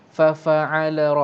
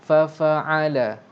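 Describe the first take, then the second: No difference in how they are said.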